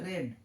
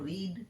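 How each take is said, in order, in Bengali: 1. স্বরধ্বনিটি ছোট 'e' ধ্বনি। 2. স্বরধ্বনিটি লম্বা 'ee' ধ্বনি। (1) "এখানে উচ্চারণ হবে রেড" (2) "এখানে যেমন বললাম রিড"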